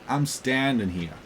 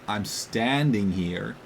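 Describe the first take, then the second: First: It is said in a Boston accent. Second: It is said in a plain American accent. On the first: "You say" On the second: "you don't say"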